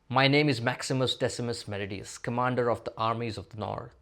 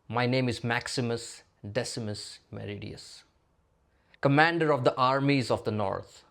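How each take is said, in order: First: The phrases run together without any pauses. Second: There are clear pauses between the phrases. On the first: The speaker calls it wrong. "I did not pause in this sentence at all" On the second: The speaker calls it right. "Now let me try again"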